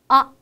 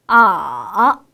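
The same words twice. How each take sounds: First: The syllable is light and short, without contour. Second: The pitch dips low, then rises slightly. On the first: "좀 가볍고 짧게 발음하는 성조" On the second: "조금 낮은 음에서 시작해서 가장 낮은 음까지 내려갔다가 천천히 살짝 위로 올리는 소리"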